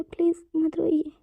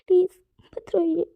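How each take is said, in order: First: "please मत रोइए" said slowly, close to crying; slow tearful plea. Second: "please मत रोइए" louder, voice cracking into crying; "please मत रोइए" louder, tears taking over; breaking into tears. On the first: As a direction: beg him gently, slowly. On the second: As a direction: let the plea break into a sob. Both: Acted. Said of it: "वांगजी भी रोना शुरू कर देता है".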